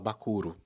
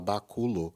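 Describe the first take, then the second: First: The last syllable begins with an R sound. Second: The last syllable begins with an L sound. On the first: "a gente fala bacuro" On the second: "em vez de falar baculo"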